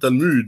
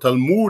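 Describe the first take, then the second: First: It uses the ordinary French pronunciation. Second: It uses an unusual variant pronunciation. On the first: It is the way people usually say it in French. "and not Talmud" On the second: It marks the speaker as echoing anti-Semitic websites. "They use the word Talmud"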